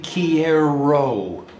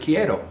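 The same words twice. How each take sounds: First: The middle consonant is an R sound. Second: The middle consonant sounds like a D. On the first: "which is actually quiero. Okay, there's an R in there" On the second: "my ear told me it was like a small D, so to me it was quiero"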